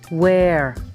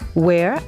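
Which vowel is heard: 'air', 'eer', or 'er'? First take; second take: air; air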